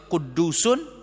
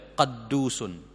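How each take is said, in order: First: The first vowel is u. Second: The first vowel is a.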